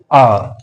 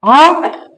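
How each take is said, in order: First: "R" as a reduced weak form, dropped low; unstressed, low "R". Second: "R" as a full strong form, high and rising; stressed, higher "R" with a rise. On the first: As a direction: say "R" lightly, pitched well down. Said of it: "R is weaker form". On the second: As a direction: give "R" its full vowel, pitched up. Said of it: "R is a stronger form". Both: Shown as a demonstration.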